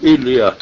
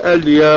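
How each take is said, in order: First: The word begins with an 'i' vowel. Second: The word begins with an 'a' vowel. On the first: The speaker calls it wrong. "ولا تقل إليا" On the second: The speaker calls it right. "وقل أليا"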